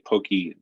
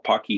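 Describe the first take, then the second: First: The first vowel is long, as in 'poke'. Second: The first vowel is short, as in 'lock'. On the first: This is a pronunciation some people use. "some say say Pokey" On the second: This is the official pronunciation. "The official way of of uh, pronouncing this, if you talk to Richard Purdy, is Pocky"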